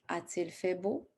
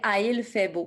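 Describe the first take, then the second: First: A t sound links 'a' and 'il'. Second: No t sound comes between 'a' and 'il'. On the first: The speaker calls it right. "Je mets le T de prononciation" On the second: The speaker calls it wrong. "Sinon, ça fait a, il fait beau"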